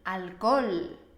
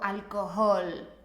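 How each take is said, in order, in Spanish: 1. La h del medio es muda. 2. La h del medio sí se pronuncia. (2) "no me digas"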